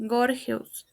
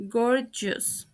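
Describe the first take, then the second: First: "gorgeous" as GOR-hes; "gorgeous" with breath h in the middle; mispronounced. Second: "gorgeous" as GOR-jus; correct pronunciation. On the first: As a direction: say "gorgeous" with a Spanish h for g. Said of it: "The first word mispronounced is". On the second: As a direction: say "gorgeous" with a j sound. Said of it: "The correct pronunciation is". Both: Shown as a demonstration.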